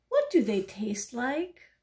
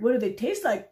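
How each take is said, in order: First: Slightly slow, innocent question, rising at the end; curious duck. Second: Loud, scornful parroting with a falling end; mocking. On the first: Acted. Little duck asking the pigeon about hot dogs, curious. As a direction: ask it slowly and curiously. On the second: Pigeon parroting the duck's question mid-rant, mocking. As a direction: parrot the question loudly, with contempt.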